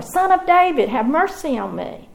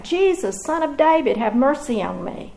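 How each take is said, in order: First: Crying out even more. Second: Crying out for mercy. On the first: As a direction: shout it over the crowd trying to hush you. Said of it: "he called out all the more". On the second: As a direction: call out to him from the roadside, begging. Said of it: "he cried out". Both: Acted.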